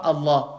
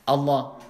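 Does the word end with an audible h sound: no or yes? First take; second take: no; yes. First: The word ends without an audible final h. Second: The word ends with an audible final h. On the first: The speaker calls it wrong. "Je dis pas Allah" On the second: The speaker calls it right. "Il y a le ha à la fin"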